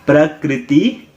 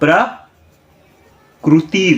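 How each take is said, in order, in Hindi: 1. k के बाद वाला अक्षर ri जैसा सुनाई देता है। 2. k के बाद वाला अक्षर ru जैसा सुनाई देता है। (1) "प्रकृति रॉन्ग है" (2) "प्रकृति राइट है"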